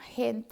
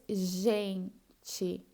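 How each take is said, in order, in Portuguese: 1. Começa com um som parecido com h gutural. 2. Começa com um zh suave. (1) "no espanhol vocês falam gente" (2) "em português, gente"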